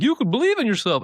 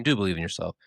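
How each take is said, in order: First: High-pitched parody of a motivational slogan; mock buzzword pep. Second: Said in the usual way. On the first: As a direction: chirp it like an empty pep talk. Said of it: "just be like, you know, buzzwording it up". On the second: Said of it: "I mean, do believe in yourself".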